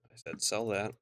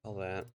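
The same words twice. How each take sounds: First: "sell" pressed a little harder, mildly insistent; insistent repeat. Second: Said in the usual way. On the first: Shown as a demonstration. Gamer repeating a sell command to the game, "sell" mildly stressed.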